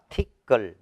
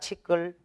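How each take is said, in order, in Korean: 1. 이 단어는 t 소리로 시작합니다. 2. 이 단어는 ch 소리로 시작합니다.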